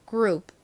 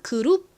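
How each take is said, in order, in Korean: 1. 영어식으로 읽고, 끝에 p 소리가 짧게 끊겨요. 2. 한국식으로 읽고, 두 음절을 온전히 살려 읽어요. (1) "이렇게 받침처럼 소리가 납니다" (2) "한국식으로는 그룹 이렇게 읽는데"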